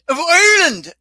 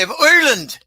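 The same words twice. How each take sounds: First: "of Ireland" in a hammed-up Irish lilt, higher and louder; Irish accent. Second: Said in the usual way. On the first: Shown as a demonstration. Host correcting himself into a mock Irish accent. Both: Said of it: "or I should say".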